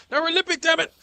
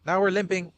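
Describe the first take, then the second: First: Very high, loud frantic squeal. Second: Louder alarmed call. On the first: Player injured, squealing very high and loud. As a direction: squeal out the complaint in panic. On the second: Player notices injury, alarmed and louder. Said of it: "Not good". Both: Real, not acted.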